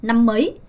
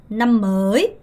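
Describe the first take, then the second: First: "năm mới" with "mới" shortened, like mấy; brief "năm mới", fast rise on the last word; short-vowel reading. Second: "năm mới" with "mới" drawn out; slow "năm mới", late rise on "mới"; long-vowel reading. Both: Shown as a demonstration. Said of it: "정확하게 구분하셔야 됩니다".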